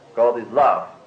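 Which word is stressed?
love. The stress falls on the word love. God can be described by each of these terms. "I can say God is soul"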